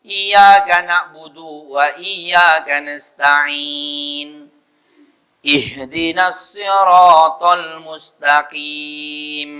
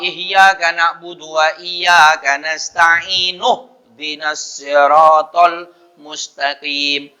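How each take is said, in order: First: It breaks before ihdinas, keeping its opening vowel. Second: It runs on, dropping the opening vowel of ihdinas. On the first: "Kalau tidak disambung" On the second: "Jadi kalau disambung"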